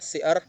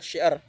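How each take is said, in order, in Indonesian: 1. Kata ini diawali dengan bunyi s biasa. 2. Kata ini diawali dengan bunyi sh. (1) "sy diucapkan menjadi s. Yang salah" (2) "yang benar adalah"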